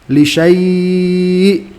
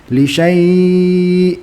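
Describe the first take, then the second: Both takes have the same delivery.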